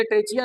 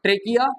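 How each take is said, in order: First: ट्रेचिया with a "chi" sound in the middle; wrong pronunciation. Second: ट्रेकिया with a hard "ki" in the middle; correct pronunciation. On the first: Teacher warning pupils off a misreading, ट्रेचिया said with "ch". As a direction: say ट्रेचिया with "ch" where the k belongs. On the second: Teacher modelling the reading for pupils, ट्रेकिया with a hard k. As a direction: say ट्रेकिया with a k, never "ch". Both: Shown as a demonstration. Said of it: "इसे ट्रेचिया नहीं पढ़ना".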